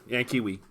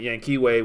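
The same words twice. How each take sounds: First: "Yan Kiwi" ending in a "wee" sound; corrected pronunciation. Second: "Yanquiwe" ending in a "way" sound; English-style pronunciation. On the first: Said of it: "I'll keep it at that". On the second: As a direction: say "Yanquiwe" as yan-kee-WAY. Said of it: "Just from an English standpoint". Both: Shown as a demonstration.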